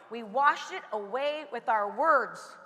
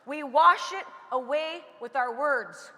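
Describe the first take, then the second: First: Slow and low, leaning on words; slow, low emphasis. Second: Slow, with wash pushed out; stress on wash. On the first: Speaker teaches the audience slowly and low, stressing words. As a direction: drop the pitch and slow right down, landing on words. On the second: Speaker repeats the lesson to the audience, stressing wash. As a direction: repeat it slowly, hitting the word wash. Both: Shown as a demonstration. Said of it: "How do we wash it away?".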